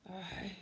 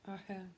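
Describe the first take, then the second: No difference in how they are said.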